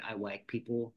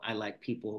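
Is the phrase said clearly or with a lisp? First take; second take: lisp; clearly. First: The phrase is said with a lisp. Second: The phrase is said clearly, without a lisp. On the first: This is how the child read the title aloud. "he had a lisp, ... but he said" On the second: This is the real title of the poem. "his name of his little poem or whatever it was called"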